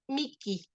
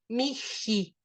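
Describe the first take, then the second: First: The middle consonant is a hard k-sound. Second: The middle consonant is a breathy h-sound. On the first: This is the Italian-style reading. "a la italiana eso se pronuncia miki" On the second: This is the reading that follows the Greek transliteration. "como en griego sería la transliteración del griego, miji, con ji"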